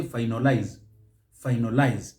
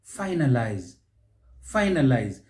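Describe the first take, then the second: First: "finalize" as fy-NO-lize; mispronounced, second-syllable stress. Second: "Finalize" as FY-nuh-lize; first-syllable stress. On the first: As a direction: say "finalize" wrongly with a stressed NO in the middle. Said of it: "on the second syllable". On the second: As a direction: hit FY at the start of "Finalize", falling after. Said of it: "stress is on that first syllable". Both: Shown as a demonstration.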